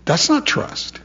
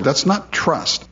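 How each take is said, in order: First: Whispered That's not trust with not pushed high; hushed emphasis on not. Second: Slow That's not trust, not leaned on and falling; slow stress on not. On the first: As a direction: breathe the word not, rising. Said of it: "That's agreement". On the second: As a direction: lay down the word not slowly and firmly. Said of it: "And I agree with his word". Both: Shown as a demonstration.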